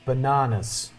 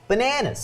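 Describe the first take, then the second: First: It is said in a non-American accent. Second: It is said in an American accent.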